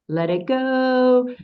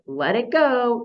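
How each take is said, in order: First: It is said with a melodic, song-like tune. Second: It is said as a firm, scolding command. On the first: It echoes a familiar song. "reading these with the Gestalt intonation that my head goes for" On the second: It tells someone to drop what they hold. "the way the parent says to the dog"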